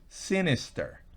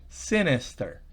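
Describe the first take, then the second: The two takes are said the same way.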